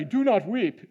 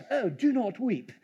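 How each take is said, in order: First: Said in the usual way. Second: Softer, put-on British reading; mock British accent. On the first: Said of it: "You think he even used a British accent". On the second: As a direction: play it as a prim British line. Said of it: "he even used a British accent in that?".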